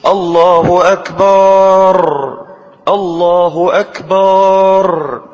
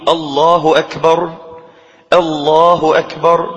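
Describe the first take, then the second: First: الله أكبر with the أكبر stretched into akbaar, slow and higher; wrongly drawn akbar. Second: الله أكبر with أكبر kept short, no lengthening; correct short akbar. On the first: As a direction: draw out أكبر as akbaar like a bad muezzin, louder. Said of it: "كما يؤذن بعض الناس يقول". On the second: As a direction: say أكبر cleanly with no drawn vowel. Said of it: "فلا يمد أكبر". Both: Shown as a demonstration.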